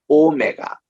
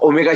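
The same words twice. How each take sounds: First: The first vowel is said long. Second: The first vowel is said short. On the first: It is the Greek letter. The speaker calls it right. "오가 깁니다" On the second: It sounds like the watch brand. The speaker calls it wrong. "오메가 시계다 아니에요"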